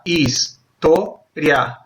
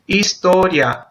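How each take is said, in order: First: "historia" split very slowly into his, to, ria; syllable by syllable. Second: Said in the usual way. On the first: Shown as a demonstration. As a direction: pause between each syllable of "historia". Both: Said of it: "porque yo las separo así".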